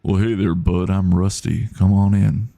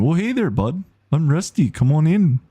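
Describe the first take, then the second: First: Lightly voiced drawling American accent. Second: Put-on high-pitched, chirpy Canadian accent. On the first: Streamer trying another voice for Rusty, light American drawl. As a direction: try a laid-back American country accent, lightly. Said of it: "Or it could be like". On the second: Streamer trying Rusty as a friendly Canadian, Canadian accent. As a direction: greet in a hammed-up Canadian voice, pitched up. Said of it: "so he could be Canadian".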